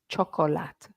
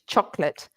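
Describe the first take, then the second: First: The word is said with three syllables. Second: The word is said with two syllables. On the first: The speaker calls it wrong. "None of this chocolate. No, Not in English" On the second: The speaker calls it right. "two syllables"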